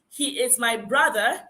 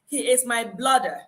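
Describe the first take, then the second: First: The last word begins with a BR sound. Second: The last word begins with a BL sound. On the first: The speaker calls it right. "instead of saying" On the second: The speaker calls it wrong. "mixes the L and the R"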